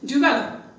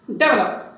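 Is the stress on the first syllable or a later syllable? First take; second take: later; first. First: The stress is not on the first syllable. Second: The stress is on the first syllable. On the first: The speaker calls it right. "No, it is develop" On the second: The speaker calls it wrong. "They put wrongly the stress on the first syllable"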